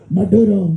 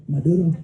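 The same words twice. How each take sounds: First: Maduro said with a tapped r, mah-DOO-ro; Spanish-style Maduro. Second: Maduro with a quick tapped r, mə-DU-to; Spanish-style Maduro. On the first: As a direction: roll the r lightly in Maduro. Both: Shown as a demonstration. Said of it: "Notice how I said that".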